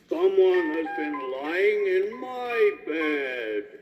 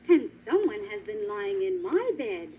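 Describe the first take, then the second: First: It is said in a great big voice. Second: It is said in a middle-sized voice.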